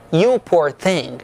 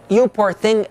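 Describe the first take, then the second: First: Slow and low, genuinely sorry for her; sincere sympathy. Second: Said in the usual way. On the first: Shown as a demonstration. Teacher models comforting an exhausted friend, sincere and kind. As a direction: say it kindly, with no irony at all. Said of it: "mas no sentido não irônico". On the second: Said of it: "no sentido verdadeiro da expressão".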